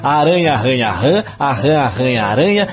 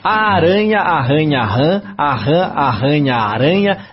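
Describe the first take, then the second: First: It is said at a faster pace. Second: It is said at a slower pace.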